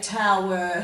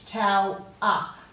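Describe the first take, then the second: First: The ending is a clear, careful 'er' sound. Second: The ending is a loose, careless 'ah' sound. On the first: The speaker calls it right. "we should really say tower" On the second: The speaker calls it wrong. "we don't say this very carefully"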